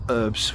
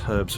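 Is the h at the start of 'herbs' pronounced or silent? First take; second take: silent; pronounced. First: The word begins without any h sound. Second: The word begins with an audible h sound. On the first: The speaker calls it wrong. "not the American herbs, which always sounds a bit weird" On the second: The speaker calls it right. "the correct pronunciation of herbs. That's herbs with an H"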